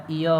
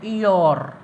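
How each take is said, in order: First: ईयर said as "ईया" with no r at the end; r silent. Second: ईयर with the r sounded; wrong pronunciation. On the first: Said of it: "silent हो जाता है". (ईयर को बिना र के "ईया" बोलना) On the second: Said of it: "ईयर नहीं होता". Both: Shown as a demonstration.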